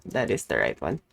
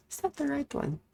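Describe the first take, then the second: First: Drops low to answer herself; low, settled reply; low self-reassurance. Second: Asks up high, as if someone else; a high doubtful voice asking; high mock question. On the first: Pretend. Answers her own question. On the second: Checking her game choice.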